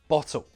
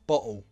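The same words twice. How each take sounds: First: The T is a clear, released T sound. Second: The T is replaced by a glottal stop. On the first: "First, true T" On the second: "Now the glottal T"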